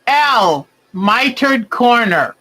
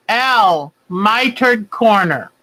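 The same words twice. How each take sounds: The two takes are said the same way.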